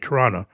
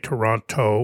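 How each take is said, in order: First: A T is dropped and it ends in 'a'. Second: Every T is pronounced in full. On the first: "we miss a T and we put an A at the end" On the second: "we don't say Toronto"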